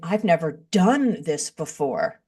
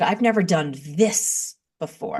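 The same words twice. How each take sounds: First: The stress falls on the word never. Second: The stress falls on the word this. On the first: The new situation feels scary and risky. The speaker calls it wrong. "instead of saying" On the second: The new situation feels exciting, a chance to learn. The speaker calls it right. "changing the emphasis on the word in the sentence"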